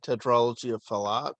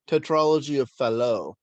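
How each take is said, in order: First: Fallot is said with an English-style pronunciation. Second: Fallot is said with a French-style pronunciation. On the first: The speaker calls it wrong. "I was mispronouncing that" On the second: The speaker calls it right. "It's a French name"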